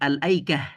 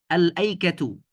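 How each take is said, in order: First: The word ends with a soft h sound. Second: The word ends with a full -tu syllable.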